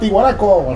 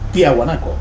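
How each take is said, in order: First: The name begins with 'Ti' and no 'a'. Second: The name begins with 'Tia' and includes the 'a'. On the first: The speaker calls it wrong. "lo decían Tihuanaco" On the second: The speaker calls it right. "Resulta que era Tiahuanaco"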